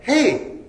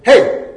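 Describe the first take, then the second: First: "Hey!" sung out high and lilting, joyous; joyous lilting call. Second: Ear-splitting high shout of "Hey!"; old man shouting across the train car, loud. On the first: Shown as a demonstration. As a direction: sing out "Hey!" like finding something you searched for. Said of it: "More like that". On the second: A narrator's reading. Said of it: "someone shouted".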